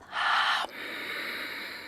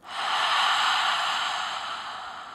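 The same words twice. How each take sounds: First: Closed-mouth ocean breath from the throat; soft throat-constricted exhale through nose; Ujjayi breath. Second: Long breathy haa through open mouth; open-mouth fogging exhale. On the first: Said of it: "This is called Ujjayi Pranayama". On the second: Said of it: "exhale out your mouth like you're fogging a mirror". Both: Shown as a demonstration.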